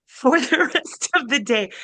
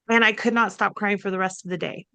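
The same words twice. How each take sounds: First: Laughing. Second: Said in the usual way. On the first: Real, not acted. Telling the podcast hosts about crying all day, laughing.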